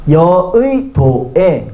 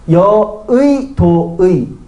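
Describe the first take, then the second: First: The second syllable uses 'i', the last 'e'. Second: Both the second and last syllables use 'ui'.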